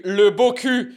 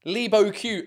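First: Louder "Le Beau Cul" as luh-bo-koo; French reading. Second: "Le Beau Cul" as English lee-bo-kyoo; anglicised reading. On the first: Relishing the restaurant's pun, emphatic French reading. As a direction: punch out "Cul" with a French vowel, no y glide. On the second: Playing with the restaurant name, anglicised. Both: Shown as a demonstration.

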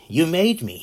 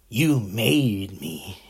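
First: Higher and louder Joker outburst; Joker shout. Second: A slow, drawn-out, menacing hint of the Joker. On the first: Retold or imitated. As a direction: fling the line out like a crazed villain. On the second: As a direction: drag out each word like a villain savouring it. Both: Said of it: "like the Joker told Batman".

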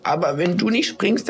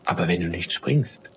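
First: Very high little piping voice; desperate squeak. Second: Low, gentle elder's voice; warm. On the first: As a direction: plead in a tiny, high squeak. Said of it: "Da piepste eine andere Schneeflocke". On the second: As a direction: reason kindly in a lowered voice. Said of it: "ihre Stimme hörte sich ... warm an". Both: A narrator's reading.

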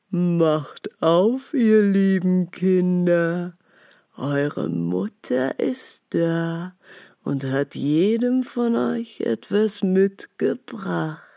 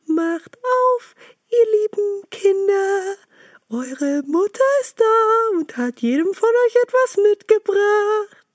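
First: Slow, rough wolf voice faking kindness; a big bad wolf drawing it out, trying to sound friendly; wolf's rough voice. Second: Much higher, sweetened wolf faking mother's voice; the wolf squeaking high like a gentle mother goat; wolf's fine chalk voice. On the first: Wolf at the door coaxing the kids, slow and rough. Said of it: "hörten an der rauen Stimme". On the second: Acted. Wolf at the door imitating the mother, high and sweet. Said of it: "machte damit seine Stimme fein".

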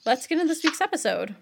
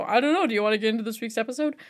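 First: Upbeat host announcement; confident host intro. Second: Fast, unsure lead-in; rushed hesitant intro. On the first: Shown as a demonstration. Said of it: "So you're gonna say". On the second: Retold or imitated. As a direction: rush the intro with a shrug. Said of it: "because I always go".

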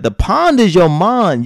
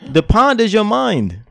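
First: "mind" pronounced with an "ah", like "mond"; slow, with "mind" losing its glide to sound like "mon". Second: Higher, with "mind" given its full "eye" vowel; corrected mind. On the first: Real, not acted. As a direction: stretch the line, "mind" coming out "mon". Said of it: "It sound like you're saying mon". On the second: Shown as a demonstration. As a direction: say "mind" clearly with a long "i". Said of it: "I know you're saying mind".

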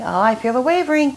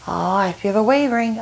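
First: Heightened mock glee. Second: Mock pushy glee. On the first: Pushy person surer of the wavering, gleeful teasing. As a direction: pitch it up as the weakness grows. Same line escalated, higher. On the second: Pushy person senses a wavering no, teasing. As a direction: savor the other person's weakness, lightly.

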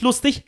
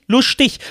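First: Said in the usual way. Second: "lustig" with a Swabian sh before the t; "lustig" turned into dialect, st as scht; Swabian pronunciation. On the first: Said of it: "Nicht, warte, nicht lustig". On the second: Shown as a demonstration. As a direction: say "lustig" as high-pitched Swabian "luschtig". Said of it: "nicht lustig, lustig".

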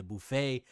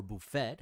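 First: "buffet" ending in an open "ay"; buffet with silent t. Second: "buffet" ending in a hard t; buffet with sounded t. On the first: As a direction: say "buffet" as buh-FAY, no t sound. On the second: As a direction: say "buffet" as buh-FET, t pronounced. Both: Shown as a demonstration. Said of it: "however you wanna pronounce that".

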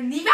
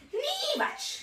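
First: Niewatsch with the stress put wrongly; mock stressing Niewatsch the wrong way. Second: Niewatsch squeaked high with the stress put right; corrected stress. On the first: Girl reading her friend's note with wrong stress. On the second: Girl correcting the stress on Niewatsch in a squeak. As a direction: chirp Niewatsch high and quieter. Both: Shown as a demonstration. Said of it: "ich hätte es falsch betont".

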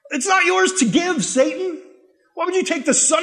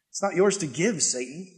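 First: Indignant rebuke. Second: Low and much softer, ending on a lift; quiet rebuke. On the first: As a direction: shout it at the devil in outrage. Preacher rebukes Satan. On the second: Preacher quietly answering Satan's temptation, low and soft. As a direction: say it hushed and firm, almost to yourself. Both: Real, not acted.

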